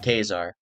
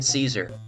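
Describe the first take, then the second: First: The name begins with a K sound. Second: The name begins with an S sound. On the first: The supposed original Roman or Greek pronunciation. "I'm pretty sure it's supposed to be pronounced Kazar" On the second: The familiar everyday pronunciation. "we're going with Caesar because, frankly, I can't get Little Caesars off my mind"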